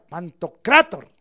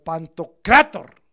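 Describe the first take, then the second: First: "Pantocrator" slowly said again with the corrected stress. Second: "Pantocrator" misread, stressed the wrong way. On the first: Preacher correcting his reading for the congregation. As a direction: carefully give "Pantocrator" its proper stress. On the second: Preacher misreading the Greek word before correcting. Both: Shown as a demonstration. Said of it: "perdón, leí mal".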